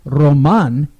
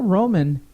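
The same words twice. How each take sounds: First: Roman said roh-MAHN, stress on the end; slow, careful roh-MAHN for Roman; corrected pronunciation. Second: Roman said ROH-mən, weak second syllable; anglicised pronunciation. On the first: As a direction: say Roman the Spanish way, second syllable drawn out. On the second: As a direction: say Roman like the English word. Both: Real, not acted. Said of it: "Roman showed up".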